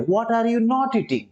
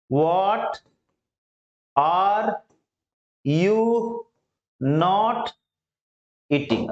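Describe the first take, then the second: First: Said in the usual way. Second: Each word said alone with long pauses. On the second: Shown as a demonstration. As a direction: break the question into single words for learners. (हर शब्द अलग-अलग रुककर) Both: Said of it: "अब इसी पे practice कर लेंगे".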